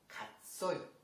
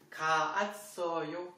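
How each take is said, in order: First: The two vowels merge into one syllable. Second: The two vowels are said as separate syllables. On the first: "Donc ça donne 갔어요" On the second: "Essayez de prononcer"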